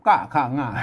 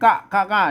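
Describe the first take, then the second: First: The syllables are said with a falling tone. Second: The syllables are said with a high tone. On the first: "อันไตยอนเนี่ยเพื่อนออกเป็นเสียงโท" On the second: "เสียงกะข้างะเนี่ยเสียงตี"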